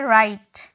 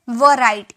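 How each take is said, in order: First: The word starts directly with an 'r' sound. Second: A 'w' sound is voiced before the 'r'. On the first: The speaker calls it right. "इसे कहा जाता है राइट" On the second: The speaker calls it wrong. "बहुत सारे student इसे क्या पढ़ते हैं? ... ये बिल्कुल गलत है"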